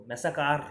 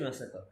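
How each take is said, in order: First: ম্যাসাকার with a full, drawn "kaar" ending; ম্যাসাকার with the last syllable sounded out like "car"; spelling-misleading pronunciation. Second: ম্যাসাকার with a light, short last syllable; ম্যাসাকার ending softly, no full "car"; actual pronunciation. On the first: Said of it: "ওইভাবে উচ্চারণ করলে বানানটা". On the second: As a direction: say ম্যাসাকার as "massa-ka", final r dropped. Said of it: "actually হচ্ছে ম্যাসাকার". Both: Shown as a demonstration.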